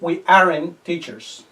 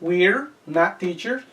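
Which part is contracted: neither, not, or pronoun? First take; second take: not; pronoun. First: The verb and not are joined as aren't. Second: The pronoun and verb are joined as we're. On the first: "O también puedo decir" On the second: "Primera contracción"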